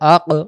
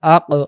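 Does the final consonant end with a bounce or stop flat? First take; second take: bounce; bounce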